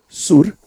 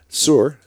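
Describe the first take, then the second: First: It is pronounced with Spanish sounds. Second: It is pronounced with English sounds.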